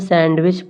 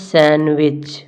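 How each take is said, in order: First: The d sound is pronounced in the middle. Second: The d sound is left out entirely. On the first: The speaker calls it wrong. "परंतु इसे हम सैंडविच पढ़ते नहीं हैं" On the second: The speaker calls it right. "इसे हम पढ़ते हैं सैंडविच"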